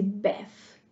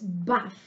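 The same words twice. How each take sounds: First: Bath with a flat a, as in cat; American a. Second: Bath with a broad ah, slowly; British a. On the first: Teacher shows students the American bath. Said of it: "para os americanos". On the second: Teacher shows students the British bath. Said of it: "para os britânicos". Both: Shown as a demonstration.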